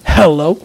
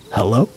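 First: Raised, questioning hello; acted "Hello?" with more force; louder call. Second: Low, questioning hello; acted wary "Hello?"; tentative call. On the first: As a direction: call out into the silence for an answer. Same man calls again, louder. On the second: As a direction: call out cautiously to whoever may be there. Trapped man calls out, first try.

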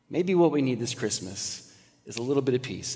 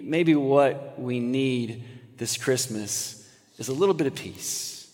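First: Softer repeat with weight on what. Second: Slow, hushed and soft. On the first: Preacher repeating line to congregation, softer. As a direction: say it again, softer. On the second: Preacher to congregation, slow hushed plea. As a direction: lean in and slow down. Soft reflective sermon turn. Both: Acted.

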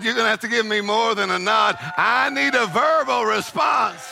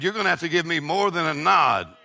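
First: God demanding. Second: Said in the usual way. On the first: Acted. Preacher voicing God, building to a shout.

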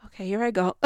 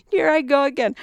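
First: Said in the usual way. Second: Sung higher and louder like a rock chorus; sung, belt it as a self-mocking song quote; mock sung line. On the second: Sung, admitting to listeners she's ranting again, belting the line as a mock song.

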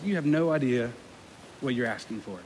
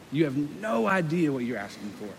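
First: Low, subdued answer trailing away; quiet grave reply. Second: "no" stretched and lifted, then falling softly; stress on no. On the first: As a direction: say it softly and soberly, dropping off. Jesus's answer, first take, understated. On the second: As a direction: lean long on "no", let the rest sink. Same answer repeated with emphasis. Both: Acted.

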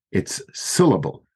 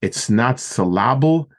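First: "syllable" stressed at the front, SIL-uh-bul; first-syllable stress. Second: "syllable" stressed on the middle, sa-LAB-ul; wrong-syllable stress. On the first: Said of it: "it's usually on the first syllable". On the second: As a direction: say syllable wrongly as suh-LAH-bul. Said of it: "Where do you put the emphasis". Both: Shown as a demonstration.

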